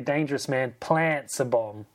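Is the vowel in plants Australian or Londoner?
Australian. Plants has an Australian A vowel. "I'm a boy from the sunny coast, New South Wales, so I want to say plants"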